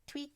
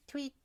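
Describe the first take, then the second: No difference in how they are said.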